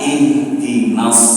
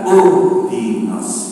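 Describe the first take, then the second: First: The word begins with the vowel i. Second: The word begins with the vowel u. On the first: The speaker calls it right. "kita baca ihdinas" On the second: The speaker calls it wrong. "bukan uhdinas"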